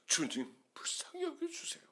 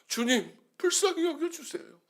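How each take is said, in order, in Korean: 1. 낮게 웅얼거리듯 조용히 말합니다. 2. 조금 더 부드러운 음량으로 말합니다. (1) "나중에 팔 포인트로 써놨습니다" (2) "십이 포인트로 썼다가"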